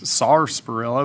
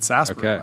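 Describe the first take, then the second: First: The word is pronounced as it is spelled. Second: The word is pronounced the usual spoken way. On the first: "I know it says sarsaparilla" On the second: "everyone pronounces it sarsaparilla"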